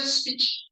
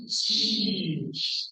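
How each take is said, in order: First: "speech" with a short, unstretched vowel, like "spitch"; common mispronunciation. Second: "speech" with a hugely stretched ee; long ee demonstration. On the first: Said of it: "This is not a speech". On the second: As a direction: draw out "speech" with cheeks pulled back. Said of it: "to make that sound". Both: Shown as a demonstration.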